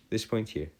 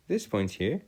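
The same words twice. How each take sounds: The two takes are said the same way.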